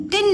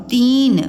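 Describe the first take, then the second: First: तिन with a short, quick i; wrong short vowel. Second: तीन with a long ee; correct long vowel. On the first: Teacher rejects the wrong word, short i in तिन. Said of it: "नहीं होगा". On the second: Teacher gives the right word, long ee in तीन. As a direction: hold the ee in तीन. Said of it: "तो तीन". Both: Shown as a demonstration.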